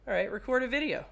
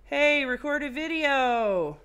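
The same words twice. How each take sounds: First: Said in the usual way. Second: Louder, higher, slow order; slow, loud demand to the phone; loud command. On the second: Real, not acted. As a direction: bark it at the phone.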